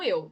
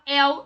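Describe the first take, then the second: First: The diphthong has a closed vowel. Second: The diphthong has an open vowel. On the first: The speaker calls it wrong. "e não eu" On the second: The speaker calls it right. "você fala el"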